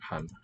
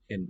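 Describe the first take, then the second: First: The vowel is an open back ah. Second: The vowel is fronted and raised toward eh. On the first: This is the Swedish pronunciation. The speaker calls it wrong. "not han. Swedish still says han" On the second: This is the Danish pronunciation. The speaker calls it right. "In, not han"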